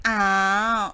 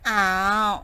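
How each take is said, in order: The two takes are said the same way.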